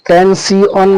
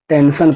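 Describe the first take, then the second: First: The ending is said as 'see-on' syllables. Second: The ending is said as a 'shun' sound. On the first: The speaker calls it wrong. "टेंसियोन पढ़ेंगे तो गलत होगा" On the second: The speaker calls it right. "टेंशन पढ़ेंगे"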